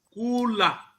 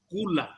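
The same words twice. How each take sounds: First: The vowels are said long. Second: The vowels are said short. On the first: "algumas vogais longas, com as mesmas expressões" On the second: "exemplos de vogais breves"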